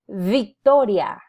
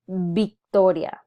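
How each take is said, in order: First: The word begins with a V sound. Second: The word begins with a B sound. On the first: The speaker calls it wrong. "Our instinct, because of our influence from English, is to want to pronounce" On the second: The speaker calls it right. "we don't have a V sound in Spanish. So it defaults into"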